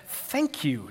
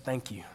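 First: Mock-sincere, backhanded thanks; soft sarcastic thank-you with a falling tune; Jimmy Fallon. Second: Soft, low, understated gratitude; sincere thanks. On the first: Writing a backhanded thank you card, mock-sincere. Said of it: "Jimmy Fallon style". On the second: Retold or imitated. Writing to the manager mistreating him, quietly sincere. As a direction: say it quietly and simply. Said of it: "So I said".

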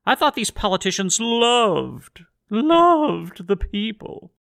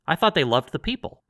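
First: "loved" drawn way out, high and mocking; stress on loved. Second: Said in the usual way. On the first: Real, not acted. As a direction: stretch "loved" into a long sarcastic croon. Sarcastic stretched repeat of loved.

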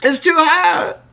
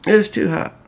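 First: Squeaky voice much higher; high squeaky complaint. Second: Whined, pitched up; higher whiny complaint. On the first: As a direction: whine it out in a tiny high voice. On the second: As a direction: whine that it's too hot. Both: Shown as a demonstration. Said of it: "It's, it's too hot to drink".

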